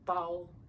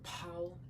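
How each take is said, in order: First: The first consonant has no puff of air. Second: The first consonant has a strong puff of air. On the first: The speaker calls it right. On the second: The speaker calls it wrong. "so it's not pao"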